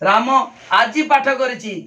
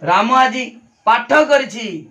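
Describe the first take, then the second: First: The stress falls on the word आजी. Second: The stress falls on the word पाठ. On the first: It was done today and not on other days. "ताने आजी करे आजी करछि आउ के दिन करेन" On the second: This activity was done rather than some other one. "अन्य दिने से पाठ करेनी से चित्र करे"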